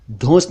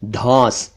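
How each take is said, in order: First: धौंस with rounded "o"; "oh" vowel in धौंस; mispronounced धौंस. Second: धौंस with open "au"; "aw" vowel in धौंस; correct धौंस. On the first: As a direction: say धौंस wrongly as "dhons". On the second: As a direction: say धौंस as "dhauns". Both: Shown as a demonstration. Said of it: "धौंस नहीं".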